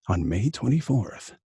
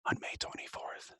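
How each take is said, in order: First: It is soft, breathy and voiced with low rumble. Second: It is spoken in a full whisper. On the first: "a more softer, intimate read" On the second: "here comes whisper"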